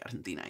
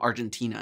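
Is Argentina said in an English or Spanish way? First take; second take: Spanish; English. First: It is pronounced the Spanish way. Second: It is pronounced the English way. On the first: The speaker calls it right. "instead of like Argentina" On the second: The speaker calls it wrong. "It's like saying Argentina"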